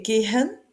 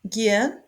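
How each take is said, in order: First: Gehen said as ge-en, no H; silent H. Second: Gehen said as ge-en, H not pronounced; silent H. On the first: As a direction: drop the H in gehen. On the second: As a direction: glide over the H in Gehen. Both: Shown as a demonstration. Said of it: "Ici, on prononce pas le H".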